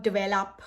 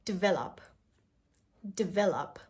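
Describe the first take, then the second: First: Develop with a heavy "vay-lup"; wrong pronunciation. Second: Develop as "dih-VEL-up"; small I after the D in Develop; correct pronunciation. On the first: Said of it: "this is not develop". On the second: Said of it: "A very small I sound". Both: Shown as a demonstration.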